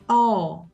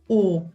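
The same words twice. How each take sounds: First: The vowel is an open o sound. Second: The vowel is a closed o sound. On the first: The speaker calls it right. "O aberto. ... é O" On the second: The speaker calls it wrong. "Não fale o"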